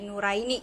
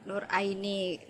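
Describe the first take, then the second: First: The r runs straight into Aini. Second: The r is said plainly before Aini.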